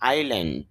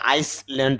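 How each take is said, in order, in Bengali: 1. L-এর আগে কোনো S উচ্চারণ হয় না। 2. L-এর আগে একটি S উচ্চারণ হয়।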